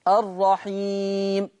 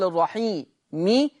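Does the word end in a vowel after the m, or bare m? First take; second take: bare m; vowel. First: The word ends on a bare, unvoweled m. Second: The final m is followed by a short i vowel. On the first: The reader stops on this word. "عند الوقف عليه الرحيم الرحيم هكذا" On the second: The word runs on into the next words. "حال الوصل أقول الرحيمي"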